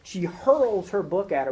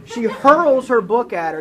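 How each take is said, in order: First: Said in the usual way. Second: "She hurls her book at her" much louder, higher and slow, "hurls" punched; dramatic emphasis. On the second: Shown as a demonstration. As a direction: slam out "hurls" with big slow force.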